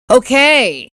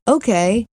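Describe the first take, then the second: First: "Okay," falling and pushed out, grudging; a clipped, loaded "Okay," with a drop; curt okay. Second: Light rising "Okay," said easily, willing; an easygoing "Okay," that goes up at the end; agreeable okay. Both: Shown as a demonstration. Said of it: "there's a difference between saying".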